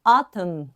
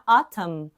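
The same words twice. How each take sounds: First: "autumn" repeated alone, clearly, with a falling tune; model repeat. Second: Said in the usual way. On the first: Shown as a demonstration. Teacher repeating "autumn" for students, slow and clear. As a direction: say "autumn" once more as the model word. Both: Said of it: "a gente vem pra autumn".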